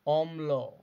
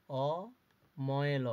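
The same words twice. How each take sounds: First: Said in the usual way. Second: Slow spelling out. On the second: Shown as a demonstration. Teacher to pupils, drawing অময়ল out very slowly. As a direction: say অময়ল very slowly, each part drawn out. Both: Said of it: "এরপরে".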